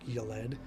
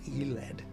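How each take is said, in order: First: The name begins with a 'yo' sound. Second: The name begins with an 'ee' sound. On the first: The speaker calls it wrong. "I've been pronouncing it like Yoled" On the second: The speaker calls it right. "and it's Eled"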